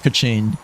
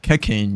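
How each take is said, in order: First: The name ends with a 'ching' sound. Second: The name ends with a 'kane' sound. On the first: The speaker calls it right. "it's actually pronounced like ka-ching" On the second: The speaker calls it wrong. "initially I saw her as like Kekane"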